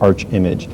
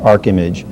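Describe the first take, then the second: First: It begins with a soft 'arch' sound. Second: It begins with a hard 'ark' sound. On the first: The speaker calls it wrong. "or Arch-Image" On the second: The speaker calls it right. "it is pronounced ArcImage"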